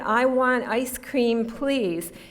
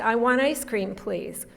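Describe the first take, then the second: First: It is said carefully with the T sound pronounced. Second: It is said quickly with the T sound dropped. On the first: "you would say it if you said it precisely" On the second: "here's how we say it fast"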